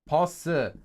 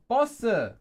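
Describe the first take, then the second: First: The first consonant is plain, not tensed. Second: The first consonant is tense and doubled. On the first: "another word like bus" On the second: "is often pronounced as well as bosse"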